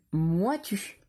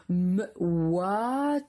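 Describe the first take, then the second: First: Said in the usual way. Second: "M-ouat-u" split into m, oua, t, u; sounded out. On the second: Shown as a demonstration. Teacher dictating the last syllable, drawn out sound by sound. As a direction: pull "M-ouat-u" apart, stretching the vowels. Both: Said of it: "la dernière syllabe".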